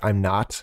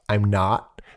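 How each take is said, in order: First: The final T is hit too hard. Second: The final T is soft and light. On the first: The speaker calls it wrong. "they might hit the letter T a bit too hard" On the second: The speaker calls it right. "instead of saying like"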